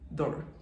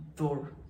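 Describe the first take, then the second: First: The vowel is kept short. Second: The vowel is kept short.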